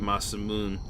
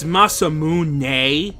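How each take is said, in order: First: The word ends in moon with no final vowel. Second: The word ends with a strong, drawn-out nay. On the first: "which is how most people call it, which is wrong" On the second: "like with a really pronounced nay at the end"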